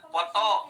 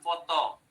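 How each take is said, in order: First: The word begins with a P sound. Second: The word begins with an F sound. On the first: The speaker calls it wrong. "jangan foto biasa saja" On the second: The speaker calls it right. "foto pakai F"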